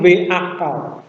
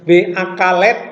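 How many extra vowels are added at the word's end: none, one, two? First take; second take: none; one. First: The word ends on consonants with no added vowel. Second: One extra vowel is inserted before the final consonant. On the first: The speaker calls it right. "tapi V akal" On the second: The speaker calls it wrong. "Tidak dipunya V akalet"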